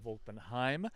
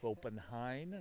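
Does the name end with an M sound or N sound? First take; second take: M sound; N sound. First: The name ends with an M sound. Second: The name ends with an N sound. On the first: The speaker calls it wrong. "not an M" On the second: The speaker calls it right. "It ends in an N"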